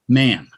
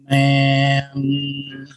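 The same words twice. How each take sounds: First: The sounds are blended quickly into one word. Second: The sounds are stretched out slowly, one by one.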